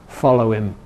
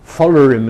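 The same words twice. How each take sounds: First: No r sound follows the final vowel. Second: An r sound follows the weak final vowel. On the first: "instead of"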